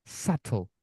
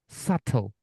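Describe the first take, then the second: The two takes are said the same way.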